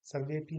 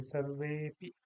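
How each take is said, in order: First: सर्वेपि with a brief वे; quick, unstretched वे in सर्वेपि; short e. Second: सर्वेपि with a long-held वे. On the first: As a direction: say सर्वेपि without holding the vowel. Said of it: "सर्वेपि नहीं". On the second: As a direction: hold the वे in सर्वेपि before पि. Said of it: "इसको दीर्घ कर देंगे". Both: Shown as a demonstration.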